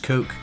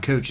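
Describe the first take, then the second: First: The name ends with a k sound. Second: The name ends with a ch sound. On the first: The speaker calls it right. "it's Coke" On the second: The speaker calls it wrong. "It's not Coach"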